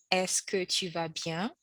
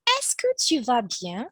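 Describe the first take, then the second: First: Slower, softer repeat for learners; teacher repeats it slowly. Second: Teacher reads the model question. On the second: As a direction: read out the model question brightly. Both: Shown as a demonstration. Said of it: "which is".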